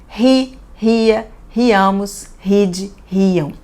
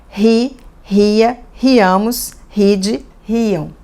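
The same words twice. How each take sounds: The two takes are said the same way.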